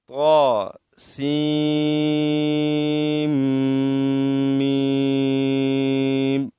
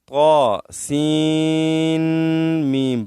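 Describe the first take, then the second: First: The n sound merges into the following m. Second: The n sound is said separately before mim. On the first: The speaker calls it right. "सीन को मीम के साथ मिलाना जरूरी है" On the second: The speaker calls it wrong. "बाज़ लोग पढ़ते हैं इस तरह, ... इस तरह इसको नहीं पढ़ना चाहिए"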